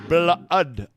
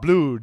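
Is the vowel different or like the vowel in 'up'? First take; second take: like up; different. First: The vowel sounds like the vowel in 'up'. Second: The vowel differs from the vowel in 'up'. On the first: The speaker calls it right. "it's blood, ud, like up" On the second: The speaker calls it wrong. "but it's not blood"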